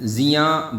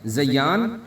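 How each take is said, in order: First: It starts with 'zi' and a single y. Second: It starts with 'za' and a doubled y. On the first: The word means loss or harm. "ज़ा के नीचे ज़ेर लगा के" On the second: The word means adornment or beauty. "इसके साथ शद लगा दें"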